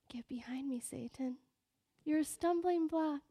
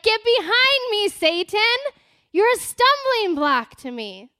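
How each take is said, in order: First: It is said in a suppressed, lifeless way. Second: It is said loudly with a fierce, angry tone.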